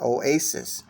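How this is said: The word is said in an American accent. "Here we would pr- pronounce it"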